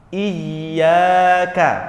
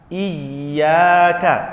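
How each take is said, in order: The two takes are said the same way.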